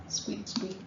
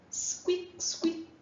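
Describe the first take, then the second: First: Very high, soft whispered squeaks; mouse squeak imitation. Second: Very high, whispered squeak like a tiny mouse; mouse squeak imitation. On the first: Teacher repeating the mouse sound for students, high whispered squeak. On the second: Teacher imitating a mouse for the class, tiny high squeak. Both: Shown as a demonstration. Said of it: "Who makes that noise?".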